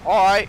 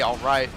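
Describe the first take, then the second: First: It is said relaxed, blurred into one syllable. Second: It is said as two fully shaped syllables. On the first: The speaker calls it right. "It's all right" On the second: The speaker calls it wrong. "you don't say all right"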